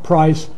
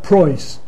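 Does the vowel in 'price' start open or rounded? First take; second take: open; rounded. First: The vowel starts with an open unrounded sound. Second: The vowel starts with a raised rounded sound. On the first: "not price" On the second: "it can move up to or"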